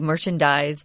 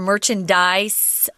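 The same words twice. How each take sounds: First: The final consonant is a buzzing Z sound. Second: The final consonant is a hissing S sound. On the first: This is the verb form. "oftentimes you'll hear this word with a Z" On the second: This is the noun form. "most of us say it with an S"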